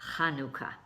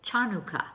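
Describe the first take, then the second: First: The word begins with a throaty h sound. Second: The word begins with a ch sound. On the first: The speaker calls it right. "It's actually pronounced Hanukkah. And it's the letter Het" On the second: The speaker calls it wrong. "a lot of people pronounce it Chanukah. Well, that's not the correct way to pronounce it"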